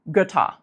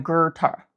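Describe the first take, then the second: First: Götter with short lax Ö, no R; correct lax Götter. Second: Götter with an American R sound, gurter; R-colored Götter. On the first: Teacher giving the correct Götter before the wrong one. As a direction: keep Götter short and loose. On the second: Teacher showing the wrong American Götter. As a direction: put an R into Götter. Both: Shown as a demonstration. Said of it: "doesn't sound like Götter".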